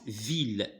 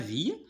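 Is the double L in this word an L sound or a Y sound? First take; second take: L sound; Y sound. First: The double L is said as an L sound. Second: The double L is said as a Y sound. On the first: The speaker calls it right. "Mais ici se prononce ville" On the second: The speaker calls it wrong. "c'est pas ville"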